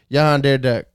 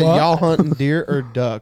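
First: It is said fast in a Creole accent. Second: It is said in a plain, clear accent. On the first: "But he said it like this" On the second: "that's what he said"

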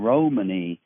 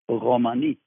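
First: The stress is on the first syllable. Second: The stress is on the last syllable. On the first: It is linked with the word roaming. "The pronunciation Romani is common, I think, because of an association with roaming around" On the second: This is how speakers of the language say it. "but at least the stress is, it's Romani, the way we say it"

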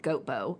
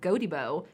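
First: The name is said with two syllables. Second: The name is said with three syllables. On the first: The speaker calls it wrong. "not Goatbo, as you'd expect" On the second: The speaker calls it right. "The people of Godibo"

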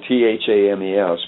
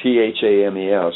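First: It is pronounced the way it is spelled. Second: It is pronounced the way it is spelled.

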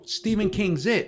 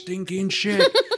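First: The words are said separately as 'Stephen King's It'. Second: The words run together to sound like 'stinking shit'. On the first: The intended movie title. The speaker calls it right. "oh, Stephen King's It" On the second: A child mangles the title into a swear word. The speaker calls it wrong. "he's just not saying it right"

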